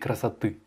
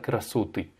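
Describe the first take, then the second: First: The stress is on the last syllable. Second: The stress is on the second-to-last syllable. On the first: The speaker calls it right. "Non, c'est красоты. On met bien l'accentuation sur la dernière syllabe" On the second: The speaker calls it wrong. "pas sur l'avant-dernière syllabe, c'est pas красоты"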